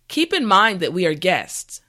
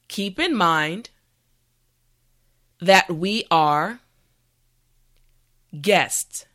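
First: The sentence is spoken at a natural pace. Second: The sentence is spoken at a slow pace. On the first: "the last time at a regular pace" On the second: "this time repeat after me"

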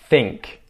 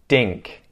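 First: The word begins with a th sound. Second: The word begins with a d sound. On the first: "pronounce with a TH" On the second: "then a D sound"

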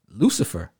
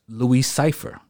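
First: The name is said fast as one word. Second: The name is said slowly as two words. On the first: It reveals the hidden name of the devil. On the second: It sounds like an ordinary first and last name.

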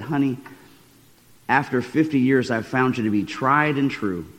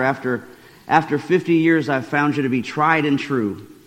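First: It is said at normal volume. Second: It is said a little louder.

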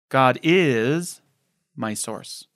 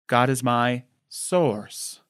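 First: The word "is" carries the main stress. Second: The word "source" carries the main stress.

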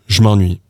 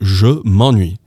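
First: 'Me' merges into 'ennuie' as one linked sound. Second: 'Me' is a full syllable before 'ennuie'. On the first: The speaker calls it right. "becomes je m'ennuie" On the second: The speaker calls it wrong. "we can't say me in front of an en sound"

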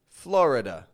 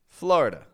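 First: The vowel after the r is pronounced. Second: The vowel after the r is dropped. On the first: This is how older generations say it. "Older generations will say it like Florida" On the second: This is how younger generations say it. "this schwa that has gone silent"

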